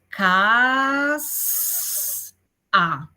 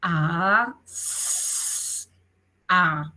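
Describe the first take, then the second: First: "Cas" unido, con vocal y "s" muy sostenidas, luego "a"; sonidos juntados y alargados. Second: "A, s, a" alargando cada sonido, con pausas entre ellos; sonidos extendidos por separado. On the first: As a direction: juntar los sonidos estirando "Cas" hacia arriba, pausa y "a" más grave. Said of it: "Y luego lo juntamos". ("Cas... a" como palabra estirada) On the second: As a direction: decir "A", "s", "a" uno a uno, sostenidos, la "s" como siseo suave. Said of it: "extender los sonidos". (sonidos de "A, s, a" estirados y separados) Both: Shown as a demonstration.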